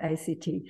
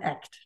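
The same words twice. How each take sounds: First: It is said as three separate letters. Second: It is said as the single word act. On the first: The speaker calls it wrong. "not ACT" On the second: The speaker calls it right. "they insist to call it ACT"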